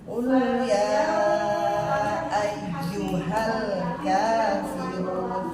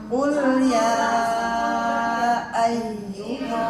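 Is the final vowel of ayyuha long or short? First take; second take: short; long. First: The final vowel is short, linked into the next word. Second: The final vowel is held long before stopping. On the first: The reader continues without stopping. "kalau kita baca wasal atau lanjut nggak jadi panjang" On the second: The reader stops after this word. "Coba kalau kita berhenti di situ"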